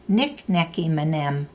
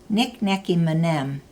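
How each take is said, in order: The two takes are said the same way.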